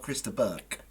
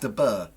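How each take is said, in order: First: The surname ends with a hard consonant. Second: The surname ends without a hard consonant. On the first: The speaker calls it wrong. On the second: The speaker calls it right. "You don't pronounce the G"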